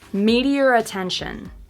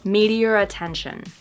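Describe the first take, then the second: First: An R sound joins the two words. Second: The words run together with no R. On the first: "You can actually see my lips making the R sound between the two words" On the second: "linking them but not using the intrusive R. And this is actually how I say them personally"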